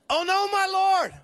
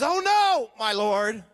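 First: It is said with a desperate, panicked voice. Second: It is said plainly, without strong emotion.

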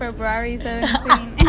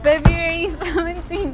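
First: The R after the B is clearly pronounced. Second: The R after the B is left out. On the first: "I would tell them February 17" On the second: "instead of February 17"

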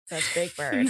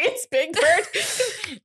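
First: It is said in a dismissive, unimpressed tone. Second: It is said in a frightened, alarmed tone. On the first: The creature is not scary at all. "They'd be like, that's not scary" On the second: The creature is terrifying. "Which I would be like, oh my God, that's so scary"

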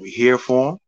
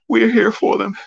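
First: It is said in a firm, grown-up manner. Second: It is said in a weak, soft manner. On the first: The speaker calls it right. "in a very respectable, grown fashion" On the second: The speaker calls it wrong. "he's already sounding weak and soft"

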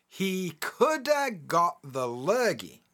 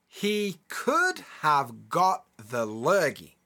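First: The words 'could have' are reduced to 'coulda'. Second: The words 'could have' are said in full. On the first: "then I'll say it with the contraction the second time" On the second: "I'll say it as it's written the first time"

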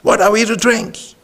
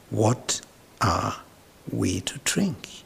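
First: It is said in a harsh, loud voice. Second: It is said in a soft voice.

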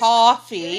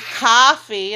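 First: The first vowel sounds like 'aw'. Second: The first vowel sounds like 'ah'. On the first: The speaker calls it right. "It's an O" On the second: The speaker calls it wrong. "it's not ka. There's no A"

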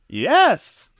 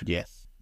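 First: It is a forceful yes in a British actor voice. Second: It is a plain, ordinary yes.

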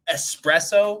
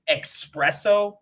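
First: The word begins with an 'es' sound. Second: The word begins with an 'ex' sound. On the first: The speaker calls it right. "I guess it's espresso" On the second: The speaker calls it wrong. "I always say espresso"

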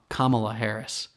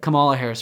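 First: The first name sounds like Mama-la with K. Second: The first name does not sound like Mama-la. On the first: The speaker calls it right. "it's like Mama-la" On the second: The speaker calls it wrong. "Or I said that wrong"

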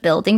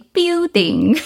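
First: It is said with a standard accent. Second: It is said with a Chinese accent. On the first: "instead of building" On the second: "they say building"

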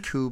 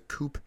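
First: The word ends in a vowel, no p. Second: The word ends with a p sound. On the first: The speaker calls it right. "It's coup, by the way" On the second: The speaker calls it wrong. "And not a chicken coop"

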